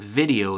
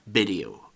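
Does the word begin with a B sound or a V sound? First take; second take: V sound; B sound. First: The word begins with a V sound. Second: The word begins with a B sound. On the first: The speaker calls it right. "instead of saying video" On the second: The speaker calls it wrong. "they'll say b instead of v"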